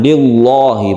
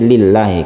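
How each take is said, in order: First: The L sound is heavy and thick. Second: The L sound is light and thin. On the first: The speaker calls it wrong. "bukan lillahi, bukan" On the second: The speaker calls it right. "tapi lillahi ... Tapi ini adalah tipis"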